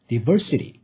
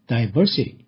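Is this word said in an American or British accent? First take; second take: American; British. First: It is said with an American accent. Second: It is said with a British accent. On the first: "미국식 발음은" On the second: "영국식 발음은"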